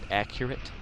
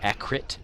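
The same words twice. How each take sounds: First: The middle vowel sound is fully pronounced. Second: The middle vowel sound is left out. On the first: "I've always pronounced it accurate because of the U" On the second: "a lot of people call it accurate and leave out shit"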